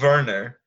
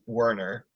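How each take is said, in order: First: The name is said with a German pronunciation. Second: The name is said with an English pronunciation. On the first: "I choose to use the German pronunciation" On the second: "way more fun than saying Werner"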